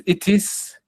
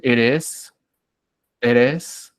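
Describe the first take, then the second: First: "it is" with a crisp, full t; higher, slower "it is", t fully sounded; clear unflapped T. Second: "eres" as English "it is" with a tapped t; fast flapped T. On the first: Teacher reassures students this is understood too, clear T. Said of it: "Si tú dices". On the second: Teacher shows how Americans say "it is" quickly, flapped T. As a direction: run "eres" together, tongue tap in the middle. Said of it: "ellos rápidamente pueden decir". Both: Shown as a demonstration.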